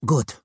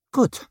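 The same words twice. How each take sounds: First: Said in the usual way. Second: Sudden high "Good"; high strained good. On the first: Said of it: "Vic cleared her throat". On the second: Acted. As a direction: voice jumping up on "Good". First take, emotional.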